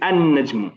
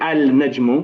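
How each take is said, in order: First: The L merges into a doubled N sound. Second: The L sound is pronounced before the N. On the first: The speaker calls it right. "We say an najmu" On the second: The speaker calls it wrong. "We don't say al najmu"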